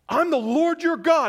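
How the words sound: It is said in an angry, sarcastic tone. The speaker resents not being listened to.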